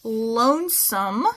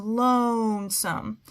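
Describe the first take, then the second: First: Lonesome said slowly, each syllable clear, rising at the end; slow careful word. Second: Lonesome with the O of the first syllable drawn out long; stretched long O. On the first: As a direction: spell out lonesome slowly for the class. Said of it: "So we have this word". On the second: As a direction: lean on the loooone in lonesome to show the long O. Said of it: "the first syllable has the long O sound". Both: Shown as a demonstration.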